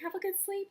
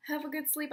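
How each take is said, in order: First: Much higher parting call; calling back sweetly. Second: Said in the usual way. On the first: Retold or imitated. Fan walking out, looking back at idol, high parting call.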